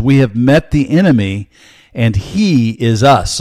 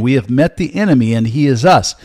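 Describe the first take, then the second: First: Slow, weighty, each word set apart; slow emphatic quote. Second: Faster, lighter run through the quote; quicker repeat. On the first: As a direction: lay the quote down slowly so it sinks in. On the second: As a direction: repeat it briskly as a reminder. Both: Shown as a demonstration. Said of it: "I'll say it again".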